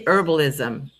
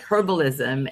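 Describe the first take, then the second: First: The word begins with a vowel, no h. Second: The word begins with an audible h sound. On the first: "They just say herbalism. ... they don't pronounce the H" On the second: "yes, I do pronounce the H"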